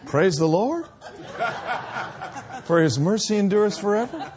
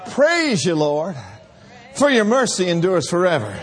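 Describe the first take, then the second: First: It is said hesitantly, like a question. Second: It is said boldly and strongly.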